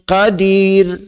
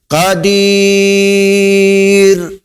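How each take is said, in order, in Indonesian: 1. Vokal sebelum r akhir itu pendek. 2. Vokal sebelum r akhir itu panjang. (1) "Dua harakah pendek je"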